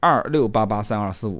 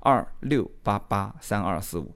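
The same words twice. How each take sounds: First: The number is said at normal speed. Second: The number is said slowly.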